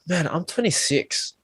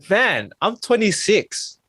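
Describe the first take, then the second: First: It is said in a dismayed, gloomy tone. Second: It is said with energy and excitement.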